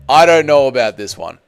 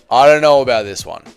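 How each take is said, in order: Both takes have the same delivery.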